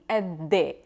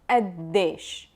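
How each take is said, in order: First: Both the initial q and final sh are dropped. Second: The initial q sound is dropped. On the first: "they will drop the qaf and the sheen at the end" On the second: "they would just drop the qa"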